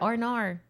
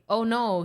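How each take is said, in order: First: It is said with a put-on Australian-style accent. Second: It is said in the speaker's plain accent.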